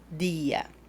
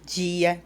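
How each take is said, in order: First: The D has the Spanish sound. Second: The D has the Portuguese sound. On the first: The speaker calls it right. "Se habla tía, día" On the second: The speaker calls it wrong. "No hablamos este sonido de la D y de la T del portugués"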